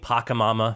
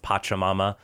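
First: The first syllable sounds like 'pack'. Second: The first syllable sounds like 'patch'. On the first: The speaker calls it wrong. "I was saying Pachamama for about 3 days" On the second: The speaker calls it right. "someone told me it's Pachamama"

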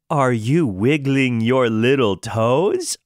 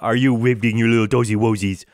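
First: It is said slowly, with clear, melodic pitch. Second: It is said faster, with less clear words.

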